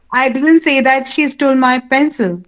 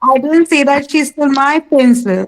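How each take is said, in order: First: Emphatic final "pencil"; stress on pencil. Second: Emphatic "my" near the end; stress on my. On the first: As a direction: drop onto "pencil" at the end. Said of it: "You dropped on pencil". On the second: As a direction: push "my" out ahead of "pencil". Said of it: "Again, my". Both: Shown as a demonstration.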